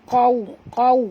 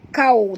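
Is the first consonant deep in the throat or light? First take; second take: deep; light. First: It starts with a deep throaty q sound. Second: It starts with a light front k sound. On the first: The speaker calls it right. "tapi baca qau qau ya" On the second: The speaker calls it wrong. "jangan baca kau"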